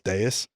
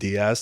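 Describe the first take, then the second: First: The name sounds like 'Day-us', ending in s. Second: The name sounds like 'Dee-ahz', ending in z. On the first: This is how the family says the name. The speaker calls it right. "but it's Deus" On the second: This is how other people say the name. The speaker calls it wrong. "I've been Diaz to many people"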